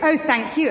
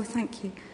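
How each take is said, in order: First: It is said loudly and pointedly. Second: It is said quietly, under the breath.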